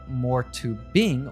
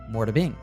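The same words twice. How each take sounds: First: The T in 'to' is a clear T. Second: The T in 'to' is a soft D. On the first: "instead of" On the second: "It sounds like a soft D sound"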